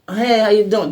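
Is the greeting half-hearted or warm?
half-hearted. The greeting sounds half-hearted and lukewarm.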